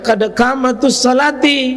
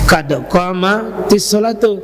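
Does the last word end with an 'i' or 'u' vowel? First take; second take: i vowel; u vowel. First: The last word ends with an 'i' vowel. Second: The last word ends with a 'u' vowel. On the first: The speaker calls it wrong. "karena ada yang baca" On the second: The speaker calls it right. "Yang benar ini"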